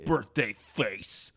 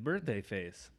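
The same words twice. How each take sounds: First: It is said in a slurred, drunk voice. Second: It is said in a plain, sober voice.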